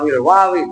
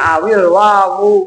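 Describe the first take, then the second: First: The last word ends with an 'i' vowel. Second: The last word ends with a 'u' vowel. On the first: The speaker calls it wrong. "Ya salah kalau lu di domati pantesan lu bacanya awil wawi" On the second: The speaker calls it right. "Makanya awil wawu"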